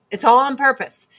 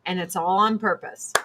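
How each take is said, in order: First: "all" hit louder and higher; emphatic repeat. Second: Said in the usual way. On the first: Real, not acted. To her viewers, stressing "all" louder and higher. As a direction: punch the word "all" in a rising, insistent voice.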